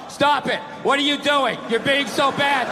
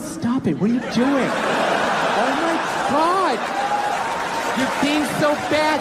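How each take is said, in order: First: It is read out in a flat, dry way. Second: It is said in a flirty, playful way.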